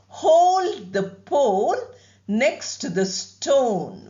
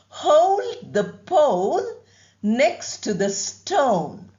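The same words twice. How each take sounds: First: The O vowels are long without gliding. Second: The O vowels glide toward an ow sound. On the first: The speaker calls it wrong. "We make the length, but we don't use the ow form very often" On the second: The speaker calls it right. "That is how it should be done"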